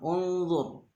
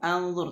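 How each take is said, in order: First: The word begins with a u vowel. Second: The word begins with an a vowel. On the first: The speaker calls it right. "tapi dibaca dhammah" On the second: The speaker calls it wrong. "tidak dibaca inzur atau anzur"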